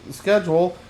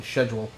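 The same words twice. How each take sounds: First: Said in the usual way. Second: Schedule said the British way, shedjool with sh. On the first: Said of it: "they're speaking with British accents". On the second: Shown as a demonstration. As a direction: soften the start of schedule to sh like a Brit. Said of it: "they're speaking with British accents, they're probably saying schedule".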